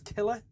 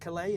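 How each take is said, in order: First: The name ends with an 'er' sound. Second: The name ends with an 'ay' sound. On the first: The speaker calls it right. "That's how I was told to pronounce it" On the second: The speaker calls it wrong. "not Calais"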